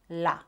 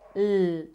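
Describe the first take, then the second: First: The consonant is followed by an added vowel. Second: The consonant is said alone with no vowel. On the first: The speaker calls it wrong. "not la" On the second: The speaker calls it right. "letter L is l"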